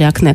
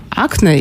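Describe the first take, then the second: First: Акне stressed on the final Е; stress on last syllable. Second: Акне stressed on the opening А; stress on first syllable. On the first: Host offering the doctor the other variant, акне stressed on last syllable. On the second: Host asking the doctor which is correct, акне stressed on first syllable. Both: Shown as a demonstration. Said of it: "как правильно?".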